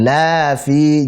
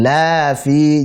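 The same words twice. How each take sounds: First: The vowel after the L is drawn out long. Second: The vowel after the L is drawn out long.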